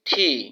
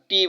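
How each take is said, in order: First: The t is said with a strong puff of air. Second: The t is said without a puff of air. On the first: The speaker calls it right. "শুদ্ধ উচ্চারণ হবে ঠি" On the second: The speaker calls it wrong. "এটাকে আমরা টি বলি"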